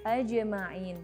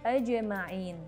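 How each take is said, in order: No difference in how they are said.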